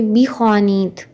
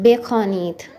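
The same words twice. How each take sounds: First: बी ख्वानीत opening on "bee"; Urdu pronunciation. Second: बे ख्वानीत opening on "bay"; Persian pronunciation. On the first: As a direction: start बी ख्वानीत with a long ee. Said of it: "अगर हम उर्दू में पढ़ें". (बी ख्वानीत, शुरू में "ई" की आवाज़) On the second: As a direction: start बे ख्वानीत with "e" instead of "ee". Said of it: "बी की बजाय बे बोलते हैं". (बे ख्वानीत, शुरू में "ए" की आवाज़) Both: Shown as a demonstration.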